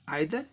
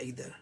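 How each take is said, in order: First: The first vowel sounds like 'eye'. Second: The first vowel sounds like 'ee'. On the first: "दोनों ठीक है" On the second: "ज्यादातर Americans आइदर को ईदर की तरह उच्चारण करते हैं"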